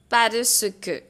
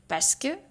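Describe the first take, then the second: First: It is said slowly and carefully. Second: It is said quickly and reduced.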